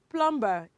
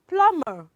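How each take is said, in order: First: The b after m is sounded. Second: The b after m is silent. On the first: The speaker calls it wrong. "It is not plumber" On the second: The speaker calls it right. "because the letter B that comes after letter M is silent"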